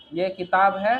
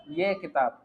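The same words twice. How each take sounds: First: Mock-wrong ये किताब है, है held long and rising; wrong reading. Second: Said in the usual way. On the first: Shown as a demonstration. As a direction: say ये किताब है as the mistaken version, है stretched and lifted. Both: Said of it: "ऐसा नहीं पढ़ा जाएगा".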